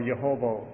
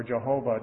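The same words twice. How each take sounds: First: Yehovah with a Y sound at the start. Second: Jehovah with an English J sound at the start. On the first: Preacher showing the Hebrew Y sound in "Yehovah". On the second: Preacher giving the English J form "Jehovah". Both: Shown as a demonstration. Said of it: "depending on how you pronounce the, the J Y".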